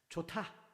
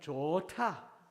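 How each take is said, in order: First: The word is said briefly, not lengthened. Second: The word is stretched out and lengthened.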